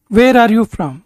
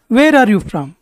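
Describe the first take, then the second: No difference in how they are said.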